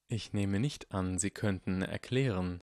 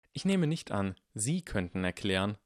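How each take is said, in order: First: Dry voice. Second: Put-on dry boy voice. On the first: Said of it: "sagte Severus trocken". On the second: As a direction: mimic the teacher dryly. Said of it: "sagte Harry trocken". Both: A narrator's reading.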